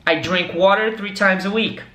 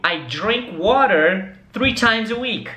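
First: Said in the usual way. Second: Slow and careful, words spaced out; slow model sentence. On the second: Shown as a demonstration. Teacher asks students to repeat, slow and clear. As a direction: say it slowly so they can repeat. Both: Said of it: "repete comigo".

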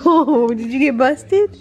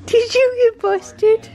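First: Amused teasing with a laugh, slowed; teasing the dog. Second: Much higher, slow sing-song squeal; squeaky pet talk. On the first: Owner teasing the caught dog, slow amused tease. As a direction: tease the pet that got caught. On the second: Owner squealing at busted dog, high slow sing-song. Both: Real, not acted.

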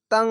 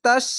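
First: তাং with a held nasal ং; ikhfa ghunnah. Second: Short তাস ending straight on স; no ghunnah. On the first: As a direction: hum through the nose at the end of তাং. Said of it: "এভাবে উচ্চারণ হবে". (তাং-এর ং নাকে টেনে গুন্না) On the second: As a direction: say তাস with no nasal hum. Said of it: "এইভাবে হবে না". (গুন্না ছাড়া সোজা তাস) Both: Shown as a demonstration.

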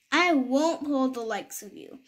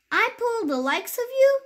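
First: Level, lightly pompous refusal; flat refusal. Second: High, scoffing rise on you; sneering disbelief; scornful question. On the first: Self-important big engine turns the toys down, level and pompous. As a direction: dismiss them in your usual pitch. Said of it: "the big engine puffed off". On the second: Proud shiny engine refuses the toys, high and scoffing. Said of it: "shiny new engine snorting". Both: Acted.

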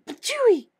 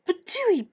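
First: Higher, harder spit of disgust; spitting. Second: Spitting. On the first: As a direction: spit even harder, really grossed out. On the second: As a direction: spit it out like a bad taste. Spitting after kiss. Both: Acted.

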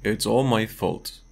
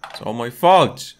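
First: Said in the usual way. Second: "It's all my fault" said louder, with the fall on "fault"; louder dramatic read. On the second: Acted. Streamer re-reading the game's line, louder dramatic read. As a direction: lean into "fault" like a guilty character.

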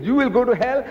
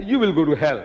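First: High-pitched, rising "You will go to hell"; mock accuser, pitched well up; acted accusation. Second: "You" stressed, falling away to "hell"; firm retort in usual pitch, falling at the end; acted retort. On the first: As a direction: throw the accusation out high, lifting at the end. Acted tit-for-tat damning, first side. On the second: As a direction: throw it back with weight on "You". Acted tit-for-tat damning, answer.

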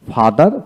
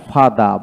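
First: "ফাদার" with the final r sounded; fully pronounced. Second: "ফাদা" without a final r; non-rhotic British-style "ফাদা"; r dropped. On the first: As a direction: say all of "ফাদার", through to the r. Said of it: "ফাদার পোড়াটাই বলবো". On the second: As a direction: end "ফাদা" on an open aa. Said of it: "এইভাবে বলবো না". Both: Shown as a demonstration.

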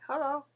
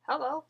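The two takes are said the same way.

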